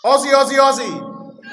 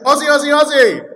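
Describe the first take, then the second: First: High, loud sporting chant; crowd call. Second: Very loud, high, quick sporting chant; full-force crowd call. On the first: Preacher prompts the church to respond, chant shouted out. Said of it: "I'm gonna say something and I'm gonna expect you to respond". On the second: Preacher retries the call to the church, fast rousing shout. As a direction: belt it fast to rouse the room. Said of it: "Can I try that again?". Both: Shown as a demonstration.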